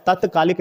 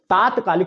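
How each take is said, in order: First: तत्कालिक opening on short "tat"; wrong short vowel. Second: तात्कालिक opening on long "taat"; long first vowel. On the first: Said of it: "नहीं होता है". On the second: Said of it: "तात्कालिक होता है". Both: Shown as a demonstration.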